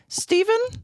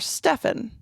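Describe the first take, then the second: First: The middle consonant is a v sound. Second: The middle consonant is an f sound. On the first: "P H still sounds like a like a V" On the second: "sometimes they say it with like a f"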